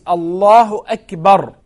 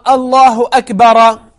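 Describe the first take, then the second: First: The last word ends in a consonant. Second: The last word ends with an extra vowel. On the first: The speaker calls it right. "it is Allahu Akbar" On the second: The speaker calls it wrong. "It's not Allahu Akbara"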